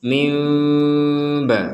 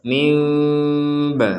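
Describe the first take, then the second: Both takes have the same delivery.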